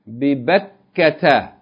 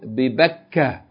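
First: The word ends with a t-sound and -a. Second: The word ends in a with no t-sound. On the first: The reading continues on without stopping. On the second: The reader stops on this word.

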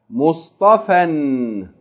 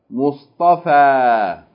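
First: The word ends with an n sound. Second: The word ends with a long a vowel. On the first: Reading continues after the word. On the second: Reading stops at the word.

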